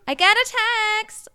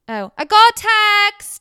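First: It is said in an American accent. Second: It is said in a British accent.

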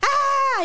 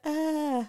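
First: It is a loud, harsh yell. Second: It is a softer, controlled shout.

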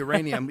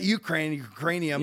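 First: The word has no 'k' sound after the 'u'. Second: The word has a 'k' sound after the 'u'. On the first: The speaker calls it right. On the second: The speaker calls it wrong.

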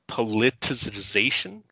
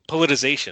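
First: Every syllable of the word is pronounced. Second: One syllable of the word is dropped. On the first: The speaker calls it right. "Can you say politicization?" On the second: The speaker calls it wrong. "people say politicization. Politization. Right, but that's not how it's spelled"

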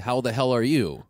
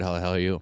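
First: The syllables are said clearly and separately. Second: The syllables are slurred together quickly. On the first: The speaker calls it right. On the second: The speaker calls it wrong.

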